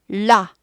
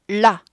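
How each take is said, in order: First: The vowel before 'la' is only a lip shape. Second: The same.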